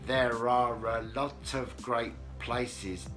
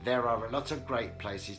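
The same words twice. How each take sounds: First: The sentence is spoken at a slower pace. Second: The sentence is spoken at a quicker pace.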